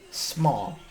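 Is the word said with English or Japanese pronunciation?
English. It is said with plain English sounds.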